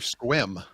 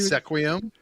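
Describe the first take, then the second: First: The name is said as one syllable, squim. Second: The name is said with three syllables, se-qui-um. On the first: The speaker calls it right. "I learned finally" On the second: The speaker calls it wrong. "Not Sequium"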